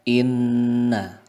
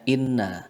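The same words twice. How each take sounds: First: The nasal nn sound is held long. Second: The nasal nn sound is short. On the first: The speaker calls it right. "kita membacanya adalah inna" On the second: The speaker calls it wrong. "tidak hanya inna"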